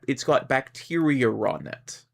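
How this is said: An R is inserted, British-style, before on.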